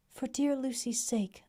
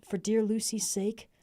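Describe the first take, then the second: First: Tender echo, higher. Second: Tender plea, slower. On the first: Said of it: "as we clasped hands". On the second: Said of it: "You will let me be like a brother". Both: Acted.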